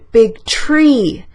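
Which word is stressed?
tree. The stress falls on the word tree. It was a tree and not something else. "Voy a enfatizar árbol"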